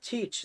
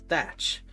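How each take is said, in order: First: The name is said as 'Teach'. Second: The name is said as 'Thatch'. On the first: The speaker calls it wrong. "it is not Teach" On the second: The speaker calls it right. "it's pronounced as Thatch"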